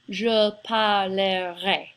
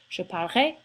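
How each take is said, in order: First: Parlerai is said with three full syllables. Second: Parlerai is squeezed into about two syllables. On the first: The speaker calls it wrong. "I didn't say je parlerai. It really doesn't have three syllables" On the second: The speaker calls it right. "it's closer to just two syllables"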